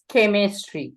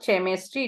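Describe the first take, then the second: First: The word begins with a k sound. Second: The word begins with a ch sound. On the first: The speaker calls it right. "it is chemistry" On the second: The speaker calls it wrong. "It's not chemistry"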